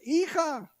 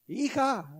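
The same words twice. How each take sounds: First: Much higher call of Hija, stretched; calling louder. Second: Calling her name, pitched up; calling daughter. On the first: Father calling his daughter again, higher and more insistent. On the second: Father calling his daughter the first time, a raised call. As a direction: call the daughter once from across the house. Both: Retold or imitated. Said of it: "Y más fuerte".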